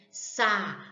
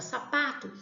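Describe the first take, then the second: First: "Sapato" broken into three slow syllables, Sa, pa, to. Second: Said in the usual way. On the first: Shown as a demonstration. Teacher counting syllables for pupils, "Sapato" slowly split up. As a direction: say "Sapato" slowly, pausing after each syllable. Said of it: "Se eu falar devagar a palavra sapato".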